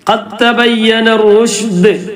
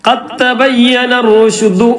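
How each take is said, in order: First: The last word ends on a bare consonant. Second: The last word ends with a short vowel. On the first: The speaker calls it right. "റുശ്ദ് ദാലിന് സുക്കൂൻ കൊടുക്കുക" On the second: The speaker calls it wrong. "അവിടെ നിർത്തുമ്പോ ഖദ് തബയ്യന റുശ്ദു എന്ന് പറയരുത്"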